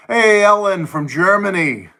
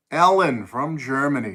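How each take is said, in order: First: Higher and louder, a bright call of hello; excited greeting. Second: Said in the usual way. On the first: Real, not acted. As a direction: greet her like a welcome surprise. Greeting a viewer on stream.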